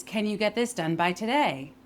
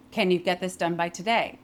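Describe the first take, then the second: First: "Can you get this done by today?" legato, words connected, weight on "today"; continuous-sound question. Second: "Can you get this done by today?" with the words detached, weight on "Can"; rhythmic question. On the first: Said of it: "practicing connecting your vowels". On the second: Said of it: "if I say it in a question". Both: Shown as a demonstration.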